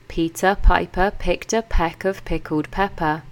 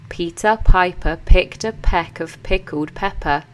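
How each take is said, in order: Both takes have the same delivery.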